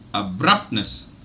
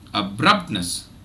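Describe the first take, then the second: The two takes are said the same way.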